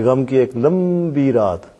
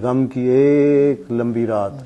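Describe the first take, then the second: First: It is read expressively, bringing out the meaning. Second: It is read casually and flatly.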